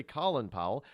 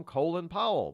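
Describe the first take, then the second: First: "Colin Powell" with "Colin" as KAH-lin; short-O Colin. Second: "Colin Powell" with "Colin" as KOH-lin; long-O Colin. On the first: Host shows the rejected name, "Colin" said KAH-lin. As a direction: give "Colin" a short o, as in doll. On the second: Host shows the accepted name, "Colin" said KOH-lin. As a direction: stretch "Colin" into a long o, like coal. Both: Shown as a demonstration. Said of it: "We don't say Colin Powell".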